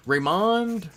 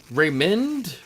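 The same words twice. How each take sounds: First: "Raymond" with an open AH, ray-MAHND; tentative second guess. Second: "Raymond" with a short MIND-like ending, pitched up; tentative first guess. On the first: Host offering another guess at the name, tentative "Raymond" as ray-MAHND. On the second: Host guessing a player's first name, tentative "Raymond" as ray-MIN'D. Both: Shown as a demonstration. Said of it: "something like that".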